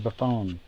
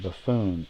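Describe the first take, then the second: First: The last syllable has a short 'on' sound. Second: The last syllable has a long 'oo' sound. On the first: The speaker calls it right. "I mean Buffon" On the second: The speaker calls it wrong. "not Buffoon. I get upset if they do announce his name wrong"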